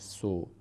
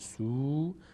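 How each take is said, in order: First: The vowel is cut short. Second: The vowel is held long. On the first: The speaker calls it wrong. "نمیشه سو" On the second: The speaker calls it right. "این واو ضمه بعدش واو اومده، میشه سو"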